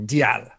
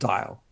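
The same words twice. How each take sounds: First: The name is said with a French-style pronunciation. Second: The name is said like the English word dial. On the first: This is how the French-speaking boss said the name. "he used to call me Dial" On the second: This is how an English speaker would read the name. "because if you're English, you know, dial a soap, dial a telephone"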